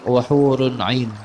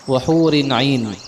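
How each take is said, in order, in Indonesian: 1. Kata hur diakhiri dengan vokal u. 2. Kata hur diakhiri dengan vokal i. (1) "dengan rafa'" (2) "dengan kasrah"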